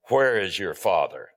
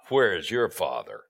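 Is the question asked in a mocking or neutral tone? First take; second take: neutral; mocking. First: The question is read in a plain, neutral tone. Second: The question is asked in a scornful, mocking tone. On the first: A simple question about where the father is. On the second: It insinuates that the listener has no legitimate father.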